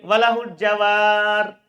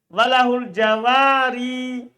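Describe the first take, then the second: First: The last word ends without the final vowel. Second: The last word ends with an audible final vowel. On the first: "Berarti dia hilangkan huruf ilah" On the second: "dibaca kasroh. ... Kan tidak hilang"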